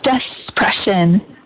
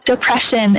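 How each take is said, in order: First: An S sound is added after the first vowel. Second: There is no S sound after the first vowel. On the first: The speaker calls it wrong. "instead of despression" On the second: The speaker calls it right. "the duh here doesn't have a an S sound or z"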